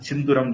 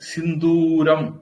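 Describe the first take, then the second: First: The second vowel is short. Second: The second vowel is long. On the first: The word is altered to fit the song. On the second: This is the usual form of the word.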